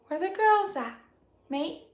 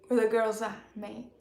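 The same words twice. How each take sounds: First: It is said in the speaker's normal voice. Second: It is said in a put-on man's voice.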